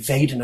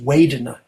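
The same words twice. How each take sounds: First: The word begins with a V sound. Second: The word begins with a W sound. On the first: "the most international standard Pali is V" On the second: "A Burmese accent is Vedana"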